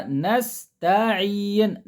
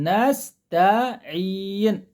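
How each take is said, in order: Both takes have the same delivery.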